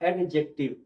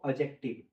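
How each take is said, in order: First: The d sound is fully and separately pronounced. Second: The d sound is soft, almost blended away. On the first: The speaker calls it wrong. "ना कि" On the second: The speaker calls it right. "इस डी letter का sound जो है वो soft हो जाता है"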